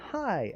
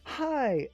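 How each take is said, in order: First: It sounds warm and politely pleased. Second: It sounds thrilled and full of excitement. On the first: It is nice to meet you. "as in, "Oh, it's good to see you. I, pleasure to meet you,"" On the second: It has been so long since we met. "as in, "Oh my god, I haven't seen you in months. How are you?"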